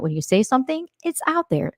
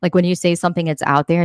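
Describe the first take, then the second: First: Lifted up high and hushed; high, hushed repeat for emphasis; higher, softer emphasis. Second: Said in the usual way. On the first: Shown as a demonstration. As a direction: drive the point home, pitched up and softer.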